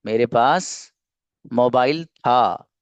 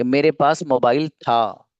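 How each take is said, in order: First: "मेरे पास", a pause, then slow "mobile था"; slow, chunked repeat. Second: Said in the usual way. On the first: Shown as a demonstration. Teacher repeats the example for learners, slow and chunked. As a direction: break it after "पास" and stretch out "mobile था".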